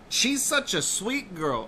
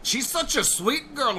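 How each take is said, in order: First: It is read in a mostly plain accent. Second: It is said in a put-on Mexican accent. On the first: "I almost instinctively read that with like a like a Mexican inflection" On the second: "with like a like a Mexican inflection"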